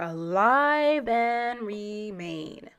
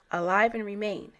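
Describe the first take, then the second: First: "alive" drawn out slowly, each word weighed; "alive" stretched long and slow; slow emphasis. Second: Said in the usual way. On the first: Shown as a demonstration. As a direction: slowly lean on "alive and remain" to underline it. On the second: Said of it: "those who are alive and remain".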